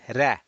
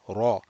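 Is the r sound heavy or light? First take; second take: light; heavy. First: The r sound is light and thin. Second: The r sound is heavy and full. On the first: The speaker calls it wrong. "not ra" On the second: The speaker calls it right. "but ra ... this is going to be heavy"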